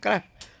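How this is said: The name is shortened to one syllable, krash. "Braj में ब्रजवासी लोग ऐसे क्रश क्रश करते हैं"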